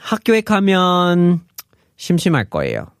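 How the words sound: A pause separates the two clauses.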